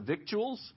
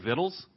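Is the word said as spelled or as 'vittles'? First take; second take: as spelled; vittles. First: It is said following its spelling. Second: It is said 'vittles', Oklahoma style.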